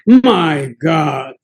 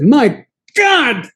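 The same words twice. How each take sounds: First: It is said quietly and in a restrained way. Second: It is exclaimed loudly and dramatically. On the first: The speaker calls it right. "That was more like the way I said it" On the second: The speaker calls it wrong. "I didn't say it like that"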